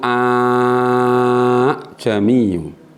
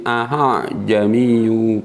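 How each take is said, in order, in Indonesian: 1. Hamzah kedua menjadi vokal panjang. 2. Hamzah kedua sedikit diringankan. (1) "jika alif itu a jamiu" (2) "Aha jami sedikit, aha ringan"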